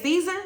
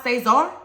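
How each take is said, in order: First: Caesar said SEE-zer, stress on the first syllable; wrong name pronunciation. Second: Cesar said say-ZAR, stress on the last syllable; correct name pronunciation. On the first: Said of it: "and they're saying Caesar". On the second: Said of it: "If you want your name pronounced Cesar". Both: Shown as a demonstration.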